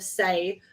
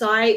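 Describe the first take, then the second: First: The vowel rhymes with 'day'. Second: The vowel rhymes with 'eye'. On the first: The speaker calls it wrong. "instead of "say"" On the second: The speaker calls it right. "it's pronounced "sai""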